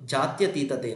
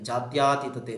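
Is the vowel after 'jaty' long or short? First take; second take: short; long. First: The vowel after 'jaty' is short. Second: The vowel after 'jaty' is long. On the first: The speaker calls it right. "Actually ಶುದ್ಧ ರೂಪ ಬಂದು" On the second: The speaker calls it wrong. "ದೀರ್ಘ ಸ್ವರವನ್ನ ಇಲ್ಲಿ ಸೇರಿಸ್ಕೊಳ್ತಾ ಇದ್ವಿ"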